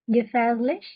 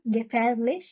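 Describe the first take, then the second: First: "gefährlich" as the wrong way, "gefezlich"; teacher shows the mispronounced "gefährlich"; wrong pronunciation demo. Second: "gefährlich" with a clear r, "gefährlich"; teacher gives the corrected "gefährlich"; correct pronunciation. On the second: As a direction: carefully say "gefährlich" the right way. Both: Shown as a demonstration. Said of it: "gefährlich नहीं".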